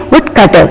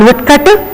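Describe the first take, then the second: First: "woodcutter" with one unstressed T; correct single T. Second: "woodcutter" with a stressed double T; wrong doubled T. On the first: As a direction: keep the TT in "woodcutter" light and single. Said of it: "We may have to say". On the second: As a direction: lean on the TT in "woodcutter". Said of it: "It is not woodcutter". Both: Shown as a demonstration.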